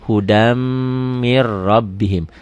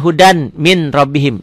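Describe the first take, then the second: First: Slow "hudam mir rabbihim", n's melted into long m and double r; as it is read. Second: Said in the usual way. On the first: Shown as a demonstration. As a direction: hum and hold the m of "hudam", then "mir rabbihim" with rolled r. ("hudam mir rabbihim", m ditahan, r didobel) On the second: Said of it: "Tulisannya hudan min rabbihim".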